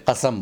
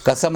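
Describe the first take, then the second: First: "कसम" with throaty q; careful Urdu "कसम" from the throat; correct pronunciation. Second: "कसम" with plain front k; everyday "कसम", no throaty q; common mispronunciation. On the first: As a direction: say "कसम" as qasam. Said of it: "कसम बोलें". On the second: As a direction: say "कसम" as kasam. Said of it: "ना बोलें". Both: Shown as a demonstration.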